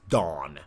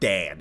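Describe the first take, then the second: First: The vowel is an open 'aw' sound. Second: The vowel is a flat 'a' sound. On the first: The speaker calls it right. "It's Dawn. Like a O" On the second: The speaker calls it wrong. "it's not Dan"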